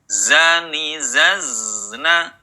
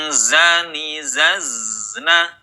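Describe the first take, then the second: Both takes have the same delivery.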